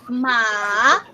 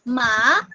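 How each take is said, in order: First: The pitch falls and then rises. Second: The pitch rises toward the end. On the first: "the downward and upward motion of your voice" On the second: "the second tone is going up"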